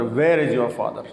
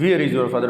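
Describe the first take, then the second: First: Where as "wair"; correct where. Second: Where as "veer"; long "ee" sound in Where; mispronounced where. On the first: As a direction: open "eh" vowel in Where. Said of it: "is the correct pronunciation". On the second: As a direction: say Where to rhyme with "here". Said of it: "It's not". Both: Shown as a demonstration.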